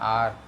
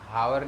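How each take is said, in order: First: The word starts with a vowel, no h. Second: The word starts with an audible h. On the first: The speaker calls it right. "आर है आर" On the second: The speaker calls it wrong. "हावर नहीं पढ़ते, H silent है"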